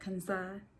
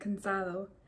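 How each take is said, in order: First: The D sound near the end is dropped. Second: The D sound near the end is pronounced.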